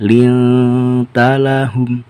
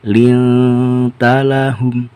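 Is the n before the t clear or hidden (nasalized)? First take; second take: hidden; hidden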